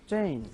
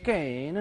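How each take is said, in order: First: The word begins with a ch sound. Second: The word begins with a k sound. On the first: The speaker calls it right. "It's चेन" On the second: The speaker calls it wrong. "ये कैन नहीं है"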